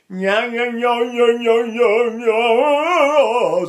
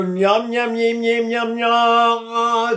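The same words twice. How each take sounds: First: High, loud nyam, nyam lifted from the throat. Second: High nyam, nyam sung into the nose; nasal nyam. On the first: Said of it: "doing another action in the throat". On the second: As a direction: buzz nyam through the nose. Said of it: "it's in my nose". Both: Shown as a demonstration.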